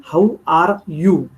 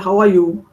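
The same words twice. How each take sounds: First: "How are you?" slowly, with the R in "are" sounded. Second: "How are you?" with the R in "are" left silent. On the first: Teacher showing the actual R, sounded slowly in "are". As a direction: stretch out "are" so its R is heard. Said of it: "Arm is actually R". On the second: Teacher showing English speech, silent R in "are". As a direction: let "are" run into "you" as "ah", no R. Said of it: "The R is silent". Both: Shown as a demonstration.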